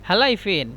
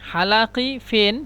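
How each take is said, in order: First: The first word has a glottal stop in the middle. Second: The first word has a q sound in the middle.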